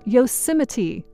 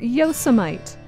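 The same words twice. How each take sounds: First: The final syllable is clearly voiced. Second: The final syllable is not clearly voiced. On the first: The speaker calls it right. "but rather ... don't forget to say the T" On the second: The speaker calls it wrong.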